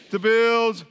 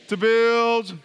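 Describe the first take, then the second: No difference in how they are said.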